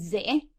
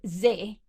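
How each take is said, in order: First: The vowel's pitch rises from low to high. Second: The vowel is said on a low pitch. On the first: "There's a rising tone" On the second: "you have a low tone"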